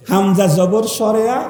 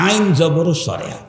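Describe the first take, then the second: First: Hamza zabar read as Bengali সরেয়া; hamza spelled out in Bengali. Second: Ayn zabar read as Bengali সরেয়া; ayn spelled out in Bengali. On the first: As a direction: give hamza the Bengali vowel. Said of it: "হামজা কোনটা, আইন কোনটা". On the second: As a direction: give ayn the same Bengali vowel. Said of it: "আইন কোনটা". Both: Shown as a demonstration.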